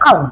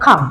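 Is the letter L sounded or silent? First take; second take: sounded; silent. First: The L sound is pronounced. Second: The L sound is left silent. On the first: The speaker calls it wrong. "bukan calm" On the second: The speaker calls it right. "maka kita banyak calm"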